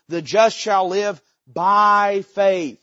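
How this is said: The stress is on "by faith".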